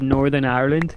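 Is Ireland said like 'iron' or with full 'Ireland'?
Ireland. Ireland is said fully with its final syllable. This is the usual pronunciation elsewhere. "Instead of Northern Ireland"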